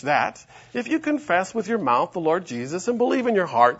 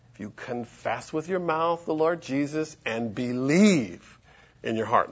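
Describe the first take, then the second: First: Said in the usual way. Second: "believe" drawn out, then a pause; slow down and land on "believe"; stress on "believe". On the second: Shown as a demonstration. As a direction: stretch "believe" and let it hang before going on. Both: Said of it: "the emphasis there is you gotta believe".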